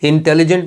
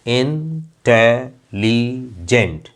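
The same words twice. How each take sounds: First: Said in the usual way. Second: इंटेलिजेंट slowly in four parts, in, te, li, jent; split into syllables. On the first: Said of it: "इंटेलिजेंट में कितनी sounds हैं". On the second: Shown as a demonstration. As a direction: pause between in - te - li - jent in इंटेलिजेंट. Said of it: "चार हैं".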